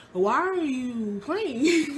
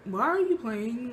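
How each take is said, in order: First: Drawn-out, slow and higher disbelieving question; slow disbelief. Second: Said in the usual way. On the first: Retold or imitated. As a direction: stretch each word out in disbelief. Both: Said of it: "And I was like".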